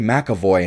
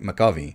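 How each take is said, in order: First: The last syllable sounds like 'voy'. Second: The last syllable sounds like 'vee'. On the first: The speaker calls it wrong. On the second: The speaker calls it right.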